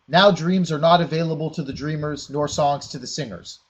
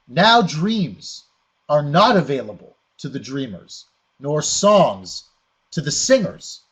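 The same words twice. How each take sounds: First: It is read straight through as one sentence. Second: It is read with pauses at the line breaks.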